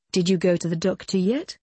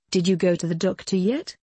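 Both takes have the same delivery.

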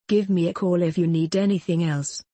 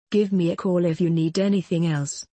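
No difference in how they are said.

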